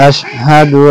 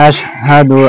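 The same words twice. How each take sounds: Both takes have the same delivery.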